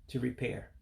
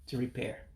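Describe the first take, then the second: Both takes have the same delivery.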